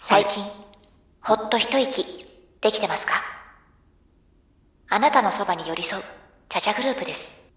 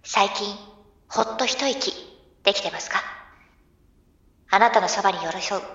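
First: Calm tea commercial voiceover; soft commercial read. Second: Gentle, soft ad voice; soft commercial read. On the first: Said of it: "もう一回、テイクツー。". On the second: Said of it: "あー、噛んだ。". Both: Shown as a demonstration.

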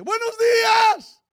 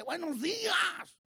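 First: Very high, booming drawn-out call; shouted greeting. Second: High, drawn-out sing-out hello; acted greeting. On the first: Acted. Preacher voicing God's sunrise greeting, shouted. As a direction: hail everyone with a long, loud shout. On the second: Retelling a coworker greeting people who ignore him, acted call. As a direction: call it out slowly in a raised pitch.

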